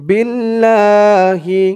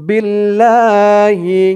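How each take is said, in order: Both takes have the same delivery.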